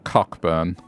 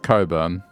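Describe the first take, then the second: First: The 'ck' sound is pronounced: Cock-burn. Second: The 'ck' sound is silent: Coburn. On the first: This is how the spelling reads. "even though it's spelled Cockburn" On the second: This is how the name is actually said. "it's pronounced Coburn"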